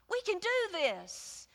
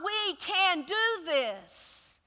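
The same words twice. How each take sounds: First: We can do this again, slow and softer; We can do this, quiet and sure; softer repeat. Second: We can do this, drawn out slowly; we can do this, slow and firm; slow insistence. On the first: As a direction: let it settle, quieter. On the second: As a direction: dig in, every word weighed. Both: Retold or imitated.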